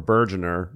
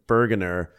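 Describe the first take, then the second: First: "Bergener" as BUR-juh-ner. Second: "Bergener" with a hard g as in go; "Bergener" as BUR-guh-ner. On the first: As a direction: say "Bergener" with a j sound for the g. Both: Shown as a demonstration. Guessing at the name's pronunciation.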